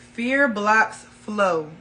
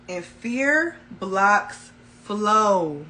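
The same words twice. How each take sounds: First: "Fear blocks flow" repeated slowly, falling on "fear". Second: Each word of "fear blocks flow" laid down slowly and firmly; slow emphatic. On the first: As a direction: hammer home "Fear blocks flow" a second time. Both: Shown as a demonstration.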